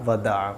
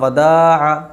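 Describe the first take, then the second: First: The second syllable is said quickly and short. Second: The second syllable's vowel is stretched long. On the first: The speaker calls it right. "दाल जल्दी पढ़ी जाएगी" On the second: The speaker calls it wrong. "उसने पढ़ा वदा तो दाल को खींच दिया"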